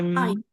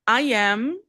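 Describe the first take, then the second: First: It is said as one contracted syllable. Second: It is said as two separate words. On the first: "vira I'm" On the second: "I am vira"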